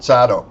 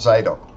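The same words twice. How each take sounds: First: The first vowel is short, as in 'cat'. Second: The first vowel is long, as in 'day'. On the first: The speaker calls it right. "It's Zadok. Got that?" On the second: The speaker calls it wrong. "you'd pronounce it Z A Y D O K"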